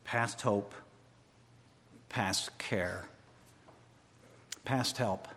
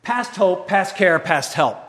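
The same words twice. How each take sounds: First: Past hope, past care, past help spoken low and soft; quiet despair. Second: Past hope, past care, past help cried loud and higher; loud cry. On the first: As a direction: murmur the three phrases low and soft. Quiet version. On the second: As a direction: shout the three phrases to God. Loud version. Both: Acted.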